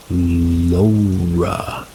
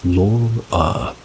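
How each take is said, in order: First: Laura as a long, drawn-out LOH-ra; altered pronunciation of Laura. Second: Laura said as LOR-uh; usual pronunciation of Laura. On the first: Narrator showing how the name came out that night, Laura as long LOH-ra. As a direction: stretch Laura out slowly on an "oh" vowel. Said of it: "But when I was talking to her, I said". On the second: Narrator showing own way of saying the name, Laura as LOR-uh. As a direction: say Laura with an "or" vowel. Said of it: "When I say Laura, I pronounce it as". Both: Shown as a demonstration.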